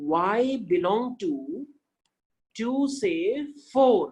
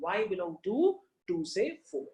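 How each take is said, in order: First: Very slow, stretched model reading; teacher modelling slowly; very slow demo. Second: Slow, softer repeat of the model; teacher repeating the phrase; slow demo. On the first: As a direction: draw each word out for the class. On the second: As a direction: repeat it quieter and less drawn out. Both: Shown as a demonstration. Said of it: "like this".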